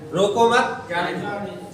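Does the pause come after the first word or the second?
second. There is a pause after the second word. Do not stop him; let him go.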